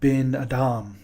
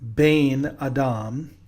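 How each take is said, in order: First: The first word has a short vowel. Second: The first word has a long vowel. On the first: "in the second instance, it is bin Adam" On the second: "in the first instance, here it is bin Adam, oh, Bain"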